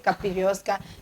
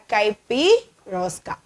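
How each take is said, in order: First: The first syllable sounds like "cap". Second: The first syllable sounds like "kai". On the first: The speaker calls it wrong. "Don't say capirosca" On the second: The speaker calls it right. "we are saying caipi"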